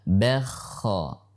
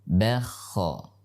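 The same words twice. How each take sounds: The two takes are said the same way.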